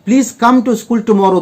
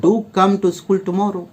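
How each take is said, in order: First: Said in the usual way. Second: "Do" weighted, whole line slow and softer; slow, insistent "Do come to school tomorrow"; stress on Do. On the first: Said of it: "दोस्त को बोल रहे हैं". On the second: Shown as a demonstration. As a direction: lean on Do to urge the friend. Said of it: "जोर देकर बोल रहे हैं कि आना जरूर".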